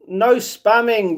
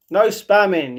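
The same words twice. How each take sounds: First: No spamming drawn out slowly, each word weighted; slow stern warning. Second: Said in the usual way. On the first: Shown as a demonstration. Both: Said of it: "You get one minute time out for spamming".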